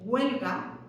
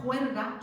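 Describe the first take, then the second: First: Said in the usual way. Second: "juerga" opening on a J sound, with R before the G; versión andaluza con J. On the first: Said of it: "tenemos la versión en castellano". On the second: Shown as a demonstration. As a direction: Andalusian form "juerga", H turned into J. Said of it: "la versión andaluza con esa J". ("juerga" con jota inicial y erre)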